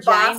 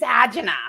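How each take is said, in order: First: It is said the way people say it elsewhere. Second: It is said the way people say it in the Bronx. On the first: "if we're somewhere else, it's angina" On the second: "If you're in the Bronx, it's agina"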